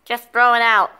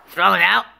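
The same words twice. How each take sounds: First: "throw it out" higher, falling at the end; firm instruction. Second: "Throw it out?" rising at the end; questioning echo. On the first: Answering Chico about the cup, firm "throw it out". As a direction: tell them "throw it out" as a falling command. Instruction, then echoed as question. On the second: Questioning the order about the cup, rising "Throw it out?". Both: Acted.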